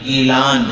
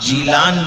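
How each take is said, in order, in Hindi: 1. नाम g ध्वनि से शुरू होता है। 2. नाम j ध्वनि से शुरू होता है। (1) "बल्कि गीलान है" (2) "असल नाम जीलान नहीं"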